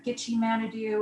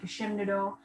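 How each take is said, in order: First: The name begins with a 'gitchi' sound. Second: The name begins with a 'geshe' sound. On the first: This is the widely heard form of the name. "you might have heard of Gitchi Manidu" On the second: This is the speaker's own community's form of the name. "For Potawatomi, we pronounce it more like Geshemnado"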